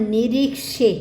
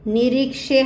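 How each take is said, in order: No difference in how they are said.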